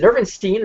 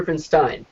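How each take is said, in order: First: "Nerfenstein" ending in "-steen", like stein as steen. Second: "Nerfenstein" ending in "-stine", rhymes with wine. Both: Shown as a demonstration. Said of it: "is it Nerfenstein or Nerfenstein".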